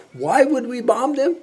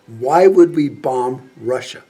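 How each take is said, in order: First: High-pitched disbelief, rising at the end; incredulous question. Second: Deliberate challenge. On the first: General baffled by a senator's war call, high incredulous question. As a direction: ask it high, as if utterly baffled. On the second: General questioning a senator's war call, slow deliberate challenge. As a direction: space out the words as a firm challenge. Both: Acted.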